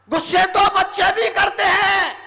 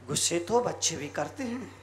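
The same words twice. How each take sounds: First: High, forceful preacher's shout; ringing high-pitched repeat; loud proclamation. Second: Low, soft delivery; understated and low; quiet aside. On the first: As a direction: proclaim it loudly to the crowd. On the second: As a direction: say it softly, pitched well down. Soft first take, then shouted repeat. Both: Shown as a demonstration.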